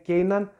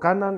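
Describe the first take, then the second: First: The first vowel is an 'ei' glide. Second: The first vowel is a plain 'a'. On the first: "ο άλλος το λέει Κέιναν" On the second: "Εγώ το λέω Κάναν"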